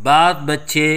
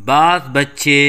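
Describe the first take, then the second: The two takes are said the same way.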